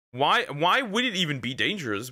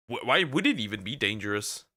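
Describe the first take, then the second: First: Puzzled. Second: Said in the usual way. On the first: Real, not acted.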